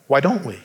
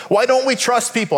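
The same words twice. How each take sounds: First: "don't" leaned on, low and falling; low-key "don't" weighted; stress on don't. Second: "don't" hit higher with a long fall; raised, emphatic "don't"; stress on don't. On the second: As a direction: lift and punch "don't" in the question. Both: Shown as a demonstration.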